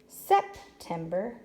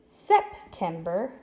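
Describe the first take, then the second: First: The stress is on the first syllable. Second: The stress is on the first syllable.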